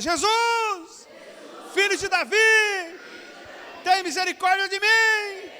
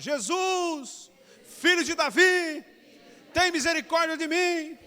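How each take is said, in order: First: It is shouted even more loudly. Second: It is shouted loudly.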